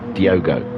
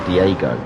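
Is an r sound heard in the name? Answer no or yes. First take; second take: no; yes. First: The name is said without an r sound. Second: The name is said with an r sound. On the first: The speaker calls it right. "I shouldn't say the R" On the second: The speaker calls it wrong. "I keep wanting to say Diego, but it's not Diego"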